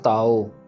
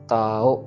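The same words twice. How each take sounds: First: The final vowel is drawn out long. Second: The first vowel is long, the last short. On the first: The speaker calls it wrong. "Not ताओ" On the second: The speaker calls it right. "ताओ ऐसे पढ़ना"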